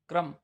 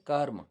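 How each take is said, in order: First: The r sound comes right after the k. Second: The r sound comes right before the m. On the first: The speaker calls it wrong. "रि और रे की मात्रा के कारण" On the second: The speaker calls it right. "शुद्ध उच्चारण होता है कर्म"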